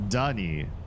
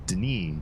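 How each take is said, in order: First: A stressed vowel is heard between D and N. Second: Almost no vowel is heard between D and N. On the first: The speaker calls it wrong. "not with the emphasis on the apostrophized, apostrophated, apostrophosed syllable" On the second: The speaker calls it right. "With very little uh in between the D and the N"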